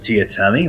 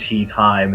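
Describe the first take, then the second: First: The name is not said like tea time. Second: The name sounds like the two words tea time. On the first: The name is said the way its owner wanted. The speaker calls it right. "you said my name right" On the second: The name is said the way everybody said it. The speaker calls it wrong. "everybody called him Tea Time, and it just drove him mad"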